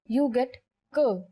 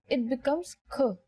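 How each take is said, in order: First: The consonant has no burst of air. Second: The consonant has a strong burst of air. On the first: "When you say it without aspiration" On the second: "But when you say it with aspiration"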